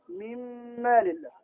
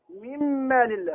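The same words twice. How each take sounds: First: مما لله recited slowly and very softly, meem doubled and held; quiet, slow Quran-style recitation; tajweed idgham demo. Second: مما لله with the doubled meem held long and slow; recited slowly with a long held meem; tajweed idgham demo. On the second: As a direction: draw out the mm in مما slowly, softly. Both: Shown as a demonstration. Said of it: "هكذا تقرأ أنت".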